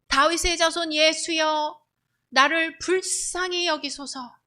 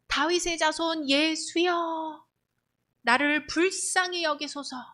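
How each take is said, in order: First: It is cried out much louder. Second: It is cried out at moderate loudness.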